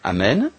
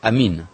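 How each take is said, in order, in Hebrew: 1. התנועה השנייה היא צליל 'e'. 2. התנועה השנייה היא צליל 'i'. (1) "רק שהקתולים אומרים אמן" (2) "והאורתודוקסים הרוסים אומרים אמין"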